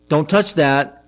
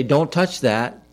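First: Sharper, a touch louder don't touch that; a half-raised parent's warning; mild mock yell. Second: Slow, firm parental warning; a slow stern don't touch that. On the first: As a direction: snap it like a parent at a stove. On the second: Retold or imitated. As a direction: hold each word of don't touch that, measured and firm. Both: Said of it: "I had to yell at them".

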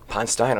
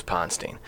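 First: Ponstein ending like "stine"; corrected pronunciation. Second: Ponstein ending like "steen"; the mistaken Ponstein, its end rhyming with "seen"; mistaken pronunciation. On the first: Real, not acted. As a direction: say Ponstein with a long i in the last syllable. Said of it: "so I was wrong this time". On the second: Shown as a demonstration. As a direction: say Ponstein with an ee in the last syllable. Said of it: "I thought it was Ponstein".

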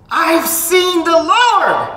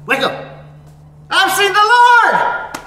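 First: Very high, loud, slow shout; yelled announcement. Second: Very high, loud, slow shouting; wake-up yell. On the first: Mary announcing to the disciples, a slow ringing yell. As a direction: proclaim it like a wake-up yell. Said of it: "sometimes pastors yell". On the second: Pastor like a teacher yelling to wake the class. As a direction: jolt the room awake with it. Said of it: "they yell just to wake you up". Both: Acted.

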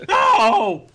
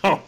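First: High, loud yelp of protest; shouted no. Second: Said in the usual way. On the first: Acted. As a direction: shriek the word No!. Jokey safe word, shouted.

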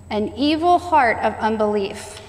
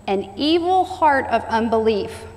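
The two takes are said the same way.

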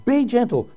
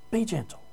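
First: Said in the usual way. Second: Be gentle dropped to a soft hush; hushed, intimate echo of the plea; softly repeated. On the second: Shown as a demonstration. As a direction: say it again, much softer, letting it sink in. Preacher repeats the exhortation.

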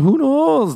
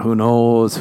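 First: KNOWS flung up high and falling; "knows" leaps way higher, then drops; sing-song who knows. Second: Said in the usual way. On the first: Acted. Host teasing the listener, high sing-song.

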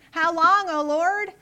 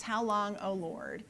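First: "How long, O Lord?" high and loud, rising on "long"; the right way: a raised, loud complaint; negative cry. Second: The wrong way: a hushed, shrinking ask; meek version. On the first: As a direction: hurl "How long, O Lord?" up at God loudly. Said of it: "He starts out with a negative". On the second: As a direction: say "How long, O Lord?" quietly and fading. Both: Shown as a demonstration.

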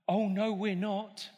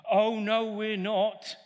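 First: Said in the usual way. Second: Pantomime shout-back; louder "no we're not" panto call; louder panto reply. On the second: Shown as a demonstration. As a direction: push the crowd's answer louder. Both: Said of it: "pantomime call and response".

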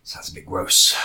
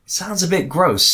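First: Quiet low mutter. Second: Slow emphatic "Sounds a bit gross"; stretched out. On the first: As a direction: mutter it under your breath. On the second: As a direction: draw out "bit" slowly and clearly. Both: Shown as a demonstration.

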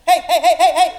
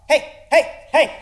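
First: Much higher, louder yelping heys; yelping hey louder, more like a dog; more doglike barking. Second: High, loud doglike yelps of hey; yelping hey while chasing a car; barking like a dog. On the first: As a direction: bark hey like a frantic dog. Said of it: "acted more like a Spanish dog". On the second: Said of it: "chase a car down the street yelling". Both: Acted.

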